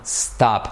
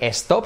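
First: The word starts directly with the s sound. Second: An extra e vowel is added before the s. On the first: The speaker calls it right. "sino stop" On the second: The speaker calls it wrong. "no se dice stop"

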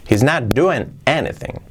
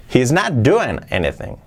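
Both takes have the same delivery.

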